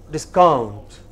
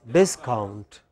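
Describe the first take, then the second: First: "discount" with the stress on count; stress on second syllable. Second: "discount" with the stress on dis, falling away after; stress on first syllable. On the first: Teacher showing students one of two stresses, second-syllable stress on "discount". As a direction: lean on the end of "discount", dis-COUNT. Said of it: "can have two kinds of stresses". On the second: Teacher showing students the other stress, first-syllable stress on "discount". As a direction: hit the start of "discount", DIS-count. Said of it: "Or it can be". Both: Shown as a demonstration.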